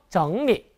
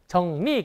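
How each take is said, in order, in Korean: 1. 중국어식으로, 성조를 넣어서 읽어요. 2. 한국어식으로 평평하게, 성조 없이 읽어요. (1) "읽을 때만 성조 넣어서 정리 이렇게 읽으시면" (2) "우리말 한자 그대로 정리"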